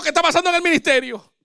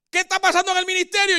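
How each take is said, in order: First: Said in the usual way. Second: Higher, quick eager wife's question; lightly voiced wife asking about church; curious wife, quick and higher. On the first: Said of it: "Yo le digo". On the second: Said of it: "Porque ella me dice".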